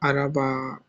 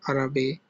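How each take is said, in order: First: The word ends with an added vowel 'a'. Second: The word ends with an added vowel 'e'. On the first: "It doesn't sound Araba" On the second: "or Arabe"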